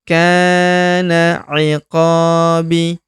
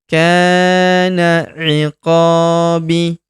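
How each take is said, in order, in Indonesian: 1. Berakhir pada vokal setelah pemanjangan yang singkat. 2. Berakhir pada vokal setelah pemanjangan yang singkat.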